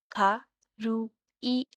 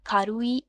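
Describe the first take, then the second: First: "खारुई" very slow, खा, रू, ई; syllable by syllable. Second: Said in the usual way. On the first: Shown as a demonstration. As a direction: leave clear gaps between the three syllables of "खारुई". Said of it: "three syllables". ("खारुई" तीन टुकड़ों में, रुक-रुककर) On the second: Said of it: "इसको अगर हम बोलें तो बोलेंगे".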